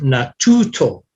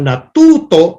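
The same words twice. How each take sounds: First: The t has a puff of air after it. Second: The t is crisp with no puff of air. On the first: The speaker calls it wrong. "not the the the English T" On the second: The speaker calls it right. "the dry T"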